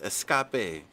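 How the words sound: It is said in a put-on Mexican accent.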